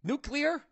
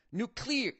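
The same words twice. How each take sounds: First: Nuclear? asked with a rising tune; testing Nuclear? as "nuke-lee-er"; unsure pronunciation. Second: Nuclear said with a falling tune; testing how to say Nuclear; try at pronunciation. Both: Shown as a demonstration. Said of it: "Is that how you say it?".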